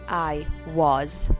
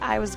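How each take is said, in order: First: The word 'was' is said slowly and in full. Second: The word 'was' is said very quickly and reduced. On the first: The speaker calls it wrong. "we don't say I was" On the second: The speaker calls it right. "We say it very, very quickly"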